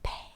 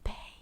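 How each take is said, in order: Both takes have the same delivery.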